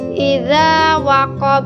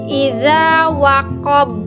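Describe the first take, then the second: First: The final b ends flat with no bounce. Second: The final b ends with a strong echoing bounce. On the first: The speaker calls it wrong. "Bacaan yang salah" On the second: The speaker calls it right. "Bacaan yang benar adalah dipantulkan dengan kuat"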